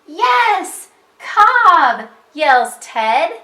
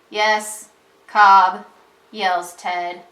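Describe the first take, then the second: First: It is read in an excited voice. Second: It is read in a plain, flat voice. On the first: The speaker calls it right. "we would read it like this" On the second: The speaker calls it wrong. "instead of saying"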